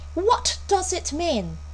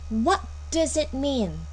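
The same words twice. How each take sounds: First: The t in what is released strongly. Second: The t in what is released lightly. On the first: The speaker calls it wrong. "強く t を発音する" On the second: The speaker calls it right. "それで十分です"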